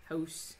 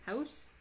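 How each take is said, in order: First: "House" in a Fargo accent, rounded toward "hohss". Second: "House" with an open "ow", rising high in an unsure Fargo attempt; tentative high-pitched Fargo-accent try at "House". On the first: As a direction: try "House" with a Fargo vowel. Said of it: "a really good Fargo accent". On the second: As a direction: question "House" upward, testing the Fargo accent. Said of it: "I can't do it". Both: Shown as a demonstration.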